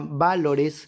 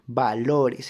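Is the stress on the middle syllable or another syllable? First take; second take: another syllable; middle syllable. First: The stress falls off the middle syllable. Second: The stress is on the middle syllable. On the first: The speaker calls it wrong. "la palabra no se pronuncia valores" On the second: The speaker calls it right. "se pronuncia valores"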